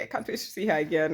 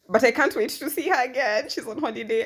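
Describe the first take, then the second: First: Said in the usual way. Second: High, loud burst of eagerness; can't wait, bursting with it; eager. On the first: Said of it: "repeat, calmer". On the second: Real, not acted. Vlogger eager to see her therapist again, excited. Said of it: "eager about seeing therapist".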